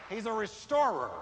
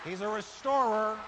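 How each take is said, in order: No difference in how they are said.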